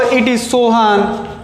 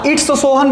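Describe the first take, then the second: First: It is said as two separate words. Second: It is said as one contracted word. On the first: "या लिख सकते हो इट इज Sohan" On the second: "इट इज को आप इट्स भी बोल सकते हो"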